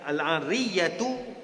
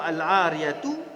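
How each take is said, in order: First: The y sound is held long and doubled. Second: The y sound is short and single. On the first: "bersabdu ya-nya"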